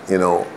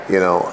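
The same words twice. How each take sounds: No difference in how they are said.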